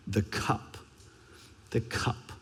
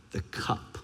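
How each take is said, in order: First: Soft, low and much quieter; hushed. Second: Breathy hushed whisper of the word. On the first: Preacher repeats the cup in a hushed, grave voice. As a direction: murmur it, grave and heavy. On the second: Preacher whispers the cup Jesus keeps praying about. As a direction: let it fall to a whisper, heavy with dread. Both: Acted. Dramatic repeated word in sermon.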